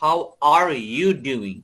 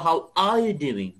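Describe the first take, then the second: First: The r in are is pronounced. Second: The r in are is dropped. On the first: "আর America বলছে" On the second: "ব্রিটিশরা বলছিল"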